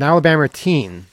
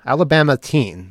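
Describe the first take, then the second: First: "Alabama" ending in an r sound, like "Alabamer"; r-coloured slip. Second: Said in the usual way. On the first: Real, not acted. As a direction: say "Alabama" with an accidental r on the final a. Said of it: "what accent I just lapsed into". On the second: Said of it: "Did I just say Alabama?".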